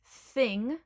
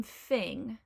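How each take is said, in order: First: Said in the usual way. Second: "fing" with an F in place of TH; Cockney th-fronting. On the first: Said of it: "will become fing". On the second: Shown as a demonstration. Teacher showing viewers the Cockney TH, "fing" with an F. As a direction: say "fing", lip on teeth for the F. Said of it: "will become fing with an F".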